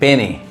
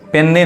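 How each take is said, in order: First: The n sound is single and short. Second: The n sound is doubled and held long. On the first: The speaker calls it right. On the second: The speaker calls it wrong. "पेन्नी नहीं"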